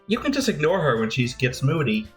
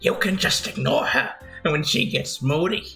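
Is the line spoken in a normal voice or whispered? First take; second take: normal; whispered. First: It is spoken in a normal full voice. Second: It is spoken in a quiet whisper.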